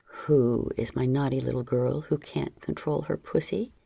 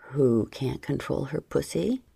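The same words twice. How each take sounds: First: Low stern male voice; a hint of a stern lover; sterner. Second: Low teasing murmur; lightly voiced man, teasing. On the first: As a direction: press him lower, more stern. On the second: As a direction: voice him low and playful. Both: A narrator's reading. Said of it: "he repeated more sternly".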